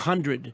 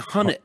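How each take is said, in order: First: The word is said with a clear 'd' sound. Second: The word is said without the 'd' sound. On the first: The speaker calls it wrong. "you don't say one hundred" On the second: The speaker calls it right. "You say Hunnet"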